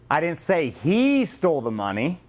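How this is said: The stress is on the word he.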